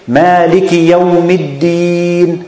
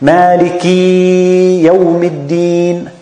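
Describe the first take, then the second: First: The i after Malik is clear but kept short. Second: The i after Malik is stretched into a long ee. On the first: The speaker calls it right. "We say Maliki Yawmiddin" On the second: The speaker calls it wrong. "we don't want the kasra to be ya"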